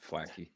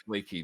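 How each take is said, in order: First: The first vowel is short, like 'flack'. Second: The first vowel is long, like 'flake'. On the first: The speaker calls it wrong. "not Flacky" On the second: The speaker calls it right. "That's Flaky Jack"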